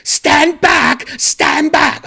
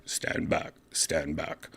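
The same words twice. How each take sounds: First: High, loud imitated British women's shout; yelling. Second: Soft, monotone machine announcement; robot voice. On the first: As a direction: yell it out far above your usual pitch. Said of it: "sounded like they were yelling at everyone". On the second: Retold or imitated. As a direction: quietly imitate a robot's recorded warning. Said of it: "a robot voice like".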